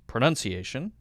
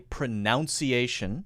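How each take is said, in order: First: The second syllable sounds like 'nun'. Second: The second syllable sounds like 'noun'. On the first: The speaker calls it right. "correct pronunciation is pronunciation" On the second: The speaker calls it wrong. "A lot of people will say pronunciation"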